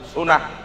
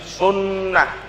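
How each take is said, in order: First: The middle n is short, not held. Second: The middle n is doubled and held longer. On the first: The speaker calls it wrong. "nggak pakai tasdid" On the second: The speaker calls it right. "pakai dhammah ya dan pakai tasdid"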